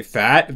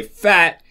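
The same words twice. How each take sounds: First: "fat" with a rising tone; pitch change. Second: "fat" high and falling; pitch change. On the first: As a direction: lift the pitch through fat like a question. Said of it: "and if I say fat". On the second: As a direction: drop the pitch firmly through fat. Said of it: "if I say fat". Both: Shown as a demonstration.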